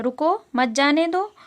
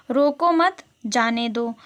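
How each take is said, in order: First: रुको set apart, मत जाने दो joined with a rising end; pause after रुको. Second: रोको मत said slowly as one group, then a break before जाने दो; pause after मत. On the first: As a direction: stop briefly after रुको, keep मत with जाने दो. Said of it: "थोड़ा सा जब रुकना होता है". (रुको के बाद रुककर मत जाने दो) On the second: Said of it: "एक ही सेंटेंस का अर्थ बिल्कुल अलग". (मत के बाद रुककर जाने दो) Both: Shown as a demonstration.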